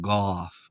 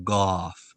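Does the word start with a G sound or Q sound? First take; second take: G sound; G sound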